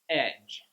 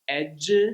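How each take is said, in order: First: The word ends cleanly on the j sound. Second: An extra vowel syllable follows the final j sound. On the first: The speaker calls it right. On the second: The speaker calls it wrong.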